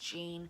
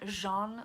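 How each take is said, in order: First: The name is said with an English sound. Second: The name is said with a French sound. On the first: The speaker calls it right. "but it's Jean from Happy Indulgence" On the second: The speaker calls it wrong. "like a French sound"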